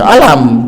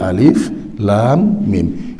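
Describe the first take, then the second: First: The letters are run together as one word. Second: Each letter is named separately, one by one. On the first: The speaker calls it wrong. "jangan dibaca alam gitu" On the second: The speaker calls it right. "tapi alif, lam, mim"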